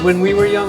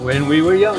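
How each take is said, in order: First: The phrase starts on a higher pitch. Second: The phrase starts on a lower pitch.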